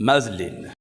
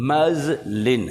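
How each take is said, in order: First: Said in the usual way. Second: मजलिन slowly, split as "muz-lin"; syllable-by-syllable pronunciation. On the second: Shown as a demonstration. Teacher shows students how to pronounce the word, मजलिन drawn out. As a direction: stretch मजलिन into two clear syllables. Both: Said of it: "How would you pronounce this word?".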